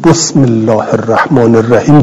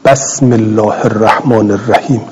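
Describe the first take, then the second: First: بسم said with a short o, "bosm"; بسم as bosmillah, o-vowel on the first letter; bosm with damma. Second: بسم said with a short a, "basm"; بسم as basmillah, a-vowel on the first letter; basm with fatha. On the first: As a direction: round the ب of بسم with o. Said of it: "یا بگویید". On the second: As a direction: open the ب of بسم with a. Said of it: "اگر که شما بگویید". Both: Shown as a demonstration.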